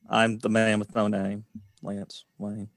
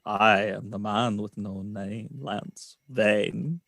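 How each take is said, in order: First: It is said in his ordinary accent. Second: It is said in a German accent.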